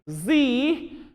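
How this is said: The letter is said the American way, zee.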